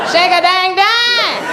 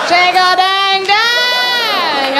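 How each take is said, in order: First: High, slow called-out line; spoken hook. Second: High, very slow, sung; sung, stretch it into a song; sung hook. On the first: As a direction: call it to the crowd. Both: Pretend. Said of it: "when the big women get up there".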